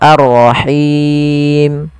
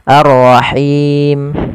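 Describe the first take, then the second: First: The final long vowel is held moderately long. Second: The final long vowel is held briefly.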